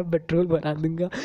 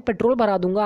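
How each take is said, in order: First: Laughing. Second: Said in the usual way. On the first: Real, not acted. Repeats the line laughing.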